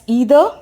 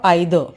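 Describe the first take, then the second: First: The first vowel sounds like 'ee'. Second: The first vowel sounds like 'eye'. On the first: "the I can be pronounced like E" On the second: "or A I"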